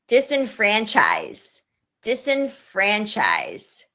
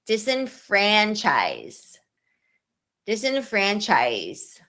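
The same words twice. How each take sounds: The two takes are said the same way.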